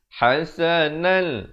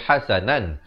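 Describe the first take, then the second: First: The final n merges into the following l sound. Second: The word ends with a clear n sound. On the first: The tanwin is assimilated into the following lam without nasalization. "Terus masuk hasanal hasanal" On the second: This is the basic form before assimilation. "Asalnya bunyi hasanan"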